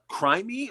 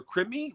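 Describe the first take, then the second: First: "Crimey" with a long i, like crime; guessed pronunciation. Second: "Crimmy" with a short i, like "brim"; alternative pronunciation. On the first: Host checking guest's last name, guessed pronunciation "Crimey" with long i. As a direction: say "Crimey" to rhyme with "limey". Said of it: "correct pronunciation of the last name". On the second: Host checking guest's last name, alternative pronunciation "Crimmy" with short i. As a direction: say "Crimmy" to rhyme with "Jimmy". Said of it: "what is the exact per". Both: Shown as a demonstration.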